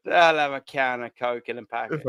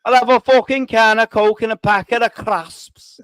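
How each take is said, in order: First: Low-pitched, unfinished stab at Scouse; bad Scouse accent. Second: Louder, hammed-up Scouse impression; terrible Scouse accent. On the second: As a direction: belt out a badly faked Scouse line. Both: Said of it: "No, that's terrible".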